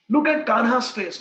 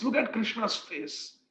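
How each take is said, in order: First: Kanha's pushed out loud; louder. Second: Krishna's said slow and gently; softer, slower. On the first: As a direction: call it out to make her look. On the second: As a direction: ease her worry, soft and slow. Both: Retold or imitated. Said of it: "he speaks".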